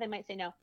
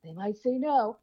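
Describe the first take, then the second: First: It is said calmly and matter-of-factly. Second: It is said with a gasp, sounding alarmed.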